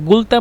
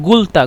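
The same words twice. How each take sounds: First: The word begins with a hard g sound. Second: The same.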